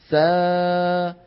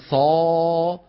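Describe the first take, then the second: First: The long vowel sounds light and thin. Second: The long vowel sounds heavy and deep. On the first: The speaker calls it right. "ليش رققنا الألف؟" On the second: The speaker calls it wrong. "ما منقول"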